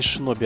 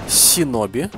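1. Слово начинается со звука 'sh'. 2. Слово начинается со звука 's'. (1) "не шиноби" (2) "Правильно говорят"

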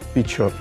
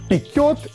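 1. Средний согласный — звук «ч». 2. Средний согласный — твердое «к». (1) "правильная форма «печет»" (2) "Режущее ухо слово «пекет»"

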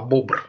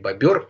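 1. Между б и р гласный звук не слышен. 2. Между б и р слышен гласный звук. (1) "Правильно надо говорить" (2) "Правильно надо говорить не бобер"

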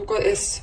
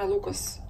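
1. Финальная S произносится как отдельная буква. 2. Финальная S присоединена к слову в одно целое. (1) "Мне почему-то удобно говорить" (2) "хотя на самом деле правильно Lucas"

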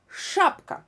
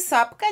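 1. Слово начинается со звука sh. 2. Слово начинается со звука s. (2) "Не сапка"

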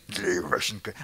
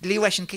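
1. Голос глубокий и хриплый. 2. Голос высокий и тонкий. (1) "Тебе кажется, что ты хриплым басом, как настоящий путешественник" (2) "А там звучит"

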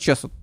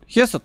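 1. Название начинается со звука ch. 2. Название начинается со звука kh. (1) "только написано Чесот" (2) "Хесот, только написано Чесот"

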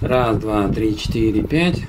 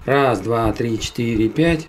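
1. На голосе слышен сильный шум ветра. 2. На голосе слышен слабый шум ветра. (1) "без ветрозащиты и без обработки" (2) "с ветрозащитой без постобработки"

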